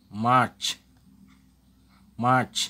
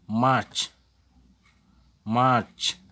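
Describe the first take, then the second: No difference in how they are said.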